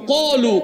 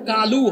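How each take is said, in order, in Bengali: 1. এটা ভারী, মোটা q দিয়ে শুরু। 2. এটা হালকা, চিকন k দিয়ে শুরু। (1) "মোটা অক্ষর পুর বলিষ্ঠ করে পড়তে হয়" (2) "বাংলায় যেটা কালু হয়"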